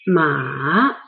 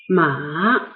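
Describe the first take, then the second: First: The pitch dips low and then rises. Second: The same.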